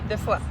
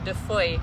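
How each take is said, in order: First: The name is pronounced the French way. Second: The name is pronounced the English way. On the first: "because that's how you say it" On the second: "In English, we would say"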